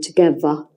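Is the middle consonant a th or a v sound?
v. The middle consonant is a v sound. "would be together"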